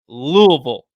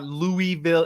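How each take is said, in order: First: The word is mumbled, syllables slurred together. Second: The word is said crisply, every syllable clear. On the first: The speaker calls it right. "you got to sound like you got marbles in your mouth" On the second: The speaker calls it wrong. "It's not Louisville"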